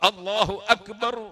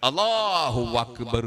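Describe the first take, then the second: First: Akbar begins with a catch deep in the throat. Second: Allahu runs into Akbar with a w sound. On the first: The speaker calls it right. "ആ എന്ന അക്ഷരം തൊണ്ടയുടെ അങ്ങേ തലക്കുന്നാണ്" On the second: The speaker calls it wrong. "അല്ലാഹുവിന്റെ ശേഷം വാ വാ"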